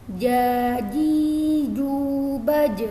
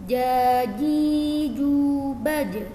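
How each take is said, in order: Both takes have the same delivery.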